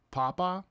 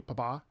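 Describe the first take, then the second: First: "Papa" stressed PA-pa, weak final a; "Papa" as PAH-puh; stress on first syllable. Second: "Papa" stressed pa-PA, like Italian papà; "Papa" as puh-PAH; stress on last syllable. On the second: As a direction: say "Papa" with the weight on the final a. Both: Shown as a demonstration. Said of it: "there's no accent over the A".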